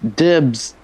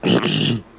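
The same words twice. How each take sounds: First: It is said in a plain, ordinary voice. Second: It is said in a put-on character voice.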